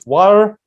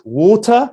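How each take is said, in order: First: It is said in an American accent. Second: It is said in a standard British accent. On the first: "American English water" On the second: "British English water"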